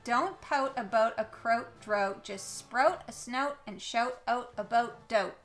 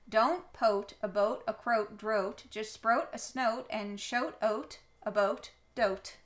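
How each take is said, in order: First: It is read with a mild accent. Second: It is read with a strong Canadian accent.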